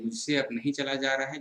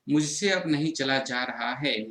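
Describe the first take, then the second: First: Said in the usual way. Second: Slow, weary, dragging each word; too worn out to walk another step; tired. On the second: Shown as a demonstration. Teacher acts out a tired student, slow and weary. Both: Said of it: "ये अपना भाव प्रकट कर रहे हैं".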